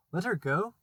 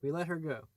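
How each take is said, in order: First: A higher, louder disbelieving echo; incredulous cry. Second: Said in the usual way. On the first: A narrator's reading. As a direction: throw the words back in shock. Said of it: "cried Hook".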